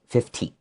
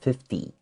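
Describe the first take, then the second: First: The middle consonant is a hard T sound. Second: The middle consonant is a soft D-like sound. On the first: The speaker calls it wrong. "they see a T, they want to say fifty" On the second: The speaker calls it right. "even though there's a T, we usually make a D sound"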